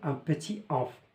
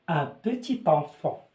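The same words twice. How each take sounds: First: Petit and enfant are said without the t link. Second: The t sound joins petit to enfant. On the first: The speaker calls it wrong. "c'est faux de dire" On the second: The speaker calls it right. "كنربطوا تي مع او كنقولوا"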